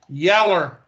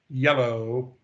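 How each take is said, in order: First: The word ends with an 'er' sound. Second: The word ends with an 'oh' sound. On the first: "For some of y'all that don't know what Yeller is" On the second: "that's yellow"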